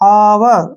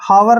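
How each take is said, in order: First: The word begins with a vowel sound. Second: The word begins with an h sound. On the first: The speaker calls it right. "इसको पढ़ेंगे हम आवर" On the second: The speaker calls it wrong. "हावर नहीं पढ़ना है"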